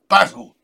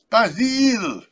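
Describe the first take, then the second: First: The name is said in a plain English accent. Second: The name is said in a heavy French accent.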